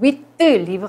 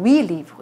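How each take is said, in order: First: The final consonant of huit is pronounced. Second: The final consonant of huit is silent. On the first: The speaker calls it wrong. "안 하고" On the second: The speaker calls it right. "위 리브 이렇게 하고요"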